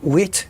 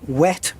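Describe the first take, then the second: First: It is said in an Australian accent. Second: It is said in an American accent.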